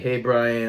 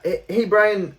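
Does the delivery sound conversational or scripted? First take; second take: scripted; conversational. First: It sounds flatly read aloud, like a script. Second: It sounds relaxed and casual, like natural talk. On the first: The caller sounds like a telemarketer. The speaker calls it wrong. "if you read the opener like I just did" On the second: The caller sounds interesting and genuine. The speaker calls it right. "I know how to sound conversational on the phone"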